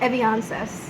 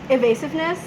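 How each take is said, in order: First: The word is said as eviances. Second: The word is said as evasiveness. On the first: The speaker calls it wrong. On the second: The speaker calls it right.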